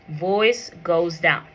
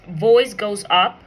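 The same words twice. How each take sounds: First: Drawn out, with the voice dropping on "down"; falling intonation. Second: Slow, with the voice climbing on "up"; rising intonation. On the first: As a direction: slowly let the pitch fall through to "down". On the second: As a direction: let "up" lift in pitch to show a rise. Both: Shown as a demonstration.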